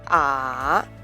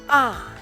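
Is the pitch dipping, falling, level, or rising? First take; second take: dipping; falling. First: The pitch dips low, then rises again. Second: The pitch falls sharply from high to low. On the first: "The third tone falls and then rises again" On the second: "The fourth tone is a short, sharply falling tone"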